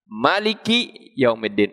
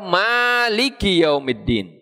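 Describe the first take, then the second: First: The first vowel of Maliki is short. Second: The first vowel of Maliki is long. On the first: God is the king of the Day of Judgement. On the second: God is the owner of the Day of Judgement.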